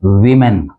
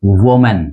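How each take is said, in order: First: वीमेन as WI-men; वीमेन with "wi", not "wo"; correct pronunciation. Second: वुमेन as WO-men; वुमेन with "wo", like the singular; common mispronunciation. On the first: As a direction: start वीमेन with an "ih" vowel. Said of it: "इसका जो correct pronunciation है". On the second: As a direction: round the first vowel of वुमेन to "wo". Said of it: "आमतौर पर गलत बोलते हैं". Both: Shown as a demonstration.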